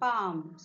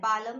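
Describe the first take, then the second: First: The L sound is not pronounced in the word. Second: The L sound is pronounced in the word. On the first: The speaker calls it right. "So here L is silent" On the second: The speaker calls it wrong. "पालम नाही म्हणत आपण"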